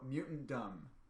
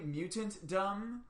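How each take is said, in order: First: The T and D run together into one sound. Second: Both the T and the D are clearly pronounced. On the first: "go mutant dumb" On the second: "pronounce the T and the D"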